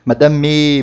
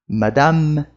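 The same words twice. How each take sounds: First: A vowel sound is added after the final M. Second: The word ends sharply on the final M. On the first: The speaker calls it wrong. "o pessoal acha que tem que pôr E no final das coisas" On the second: The speaker calls it right. "A gente vai parar a pronúncia na letra anterior"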